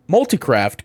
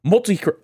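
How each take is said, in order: First: Said in the usual way. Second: Hiccups. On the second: Real, not acted. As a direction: voice jumps up on a hiccup. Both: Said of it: "sorry, I have the hiccups".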